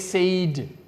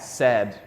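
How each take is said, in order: First: The vowel sounds like the one in 'day'. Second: The vowel sounds like the one in 'sad'. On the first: The speaker calls it wrong. "Don't say said" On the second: The speaker calls it right. "Like when you're sad"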